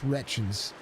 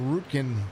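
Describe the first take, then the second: First: The name ends with a 'chins' sound. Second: The name starts 'root' and ends 'kin'. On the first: The speaker calls it right. "let's say it correctly" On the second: The speaker calls it wrong. "I messed it up bad"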